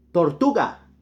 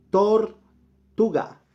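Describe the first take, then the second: First: Said in the usual way. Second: Tortuga stretched very slowly and higher; teacher stretching tortuga for learners; drawn-out model word. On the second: Shown as a demonstration. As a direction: sing out tortuga slowly for the class. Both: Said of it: "teacher models word".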